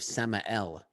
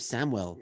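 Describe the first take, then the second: First: The name is pronounced as Samael, not Samuel. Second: The name sounds like the common name Samuel. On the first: The speaker calls it right. "it's actually Joseph Samael, is how it's pronounced" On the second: The speaker calls it wrong. "I thought it was Joseph Samuel"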